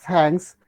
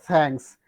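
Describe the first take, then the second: The two takes are said the same way.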